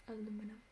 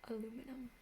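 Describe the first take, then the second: No difference in how they are said.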